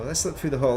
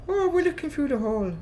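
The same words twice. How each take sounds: First: Said in the usual way. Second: High-pitched, put-on Irish lilt; exaggerated Irish accent in a high voice; attempted Irish accent. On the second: Shown as a demonstration. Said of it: "my attempt at an Irish accent".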